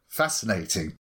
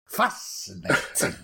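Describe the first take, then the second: First: It is said in a plain, ordinary voice. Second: It is said imitating Davros's drawn-out delivery.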